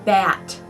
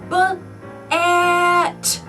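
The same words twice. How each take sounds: First: The word is said at normal speed, unbroken. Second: The word is drawn out, sounds pulled apart. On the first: "the next word is bat" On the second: "Stretch it out"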